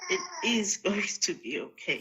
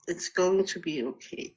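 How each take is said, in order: First: It is said with conviction and meaning. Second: It is said plainly, without special conviction.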